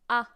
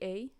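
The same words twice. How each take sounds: First: The letter sounds like an open, surprised 'ah'. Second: The letter sounds like the 'ay' in hey. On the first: The speaker calls it right. "you say A, A, as if you were surprised" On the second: The speaker calls it wrong. "we don't say A. A would be like saying hey"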